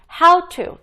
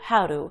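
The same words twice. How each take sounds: First: It is said slowly with a clear t. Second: It is said fast with a flapped t.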